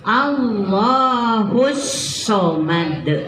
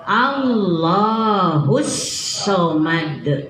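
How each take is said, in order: First: The s sound is held long and pressed. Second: The s sound is held long and pressed.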